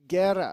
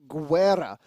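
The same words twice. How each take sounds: First: The G has no w sound after it. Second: The G is followed by a w sound. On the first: The speaker calls it right. "Guerra, I think, is the closest to the uh, Spanish pronunciation" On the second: The speaker calls it wrong. "The one pronunciation that I would say is not correct is Guerra. ... There's no W in there"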